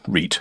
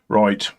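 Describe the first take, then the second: First: The word is said with an 'ee' vowel. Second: The word is said with an 'eye' vowel.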